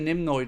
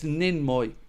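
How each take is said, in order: First: The first syllable ends with an m sound. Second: The first syllable ends with an n sound. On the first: The speaker calls it wrong. "I say Nimnoy, don't I?" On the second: The speaker calls it right. "Apologies, sir. It's Ninmoy"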